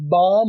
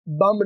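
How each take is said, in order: First: The vowel is a long open 'aa' sound. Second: The vowel is a short 'u' sound. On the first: The speaker calls it right. "बाम होता है" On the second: The speaker calls it wrong. "बम नहीं होता"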